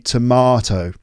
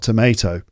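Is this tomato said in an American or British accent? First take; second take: British; American. First: It is said with a British pronunciation. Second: It is said with an American pronunciation. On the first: The speaker calls it right. "it should be tomato" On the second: The speaker calls it wrong. "not tomato"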